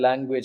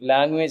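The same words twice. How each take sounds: First: The first syllable has a nasal 'ng' sound. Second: The first syllable lacks a nasal 'ng' sound. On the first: The speaker calls it right. "ആണ്. ഇങ്ക വരണം" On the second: The speaker calls it wrong. "അല്ല"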